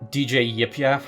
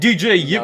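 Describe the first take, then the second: First: The name is said flatly, without enthusiasm. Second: The name is said loudly with lively enthusiasm.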